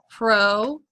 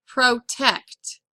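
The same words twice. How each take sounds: First: "Protect" broken as PRO, long pause, TECT; "Protect" pulled apart for spelling; syllable by syllable. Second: Said in the usual way. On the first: Shown as a demonstration. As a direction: dictate "Protect" in two separated syllables. Dictating a word by syllables.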